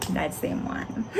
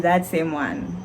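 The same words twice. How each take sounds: First: The same words whispered, much softer; sheepish whisper. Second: Said in the usual way. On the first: Retold or imitated. Student to examiner, repeating her answer in a sheepish whisper. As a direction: shrink away as you repeat it.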